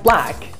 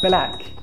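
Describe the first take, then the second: First: The opening consonants are said together without a vowel. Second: An extra vowel breaks up the opening consonants. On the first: The speaker calls it right. "words like" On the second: The speaker calls it wrong.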